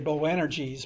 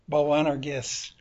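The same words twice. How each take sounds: First: It is pronounced with English sounds. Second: It is pronounced with Greek sounds. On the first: The speaker calls it wrong. "your poor English pronunciation" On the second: The speaker calls it right. "the Greek word"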